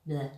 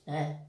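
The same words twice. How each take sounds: First: Flat deflated bleh sound. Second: Second flat deflated bleh; flat heavy bleh again. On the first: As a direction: let it out flat and heavy. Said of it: "and I'll do this". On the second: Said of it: "I felt". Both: Shown as a demonstration.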